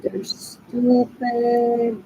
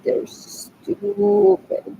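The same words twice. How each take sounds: First: Very slow "They're stupid", "stupid" stretched long; drawn-out scorn. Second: Much higher, very slow "They're stupid", "stupid" stretched long; high mocking drawl. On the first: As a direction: drag each word of "They're stupid" slowly. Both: Real, not acted. Repeating insult about cousins.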